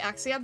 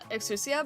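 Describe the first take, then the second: First: The middle u sound is dropped entirely. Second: The middle u sound is fully pronounced. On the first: "they don't pronounce the U" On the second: "it's supposed to be uh Exousia"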